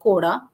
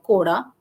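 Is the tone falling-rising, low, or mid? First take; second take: falling-rising; falling-rising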